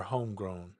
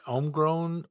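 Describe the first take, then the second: First: "homegrown" with a sounded h; pronouncing a name. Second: "homegrown" with silent h, starting on "ohm"; pronouncing a name. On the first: Streamer offering viewer the other option, "homegrown" with h. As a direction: say "homegrown" as "home-grown", breathing the h at the start. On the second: Streamer asking viewer how the name is said, "homegrown" without h. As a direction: say "homegrown" as "ohm-grown", dropping the h. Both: Shown as a demonstration. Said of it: "tell me how to pronounce it".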